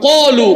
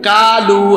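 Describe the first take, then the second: First: The first consonant is heavy, with a full vowel. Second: The first consonant is light, with a thin vowel. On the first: The speaker calls it right. "আরবিতে সাতটা অক্ষর মোটা... পুর বলিষ্ঠ করে পড়তে হয়" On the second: The speaker calls it wrong. "বাংলা তো এরকমই হবে"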